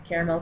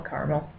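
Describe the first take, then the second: First: "Caramel" as CARE-uh-mel; three-syllable caramel. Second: "caramel" as CAR-mul; two-syllable caramel. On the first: Speaker neurotic over the word, "Caramel" as CARE-uh-mel. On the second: Speaker neurotic over the word, "caramel" as CAR-mul. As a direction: drop the middle vowel of "caramel", CAR-mul. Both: Shown as a demonstration. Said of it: "I'm gonna say it".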